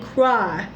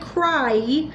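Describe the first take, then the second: First: The vowel is an exaggerated open 'aw' sound. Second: The vowel is a plain 'eye' sound. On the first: The speaker calls it right. "an over exaggerated way of crying" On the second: The speaker calls it wrong. "I'm not saying cry"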